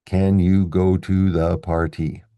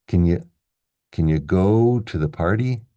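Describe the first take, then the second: First: Said in the usual way. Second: Quick reduced "can you", long strong "go", first syllable of "party" stressed. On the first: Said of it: "Which words are we gonna stress?". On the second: Shown as a demonstration. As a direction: slide through "can you" as "kn yə", lean on "go" and "party". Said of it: "So we get".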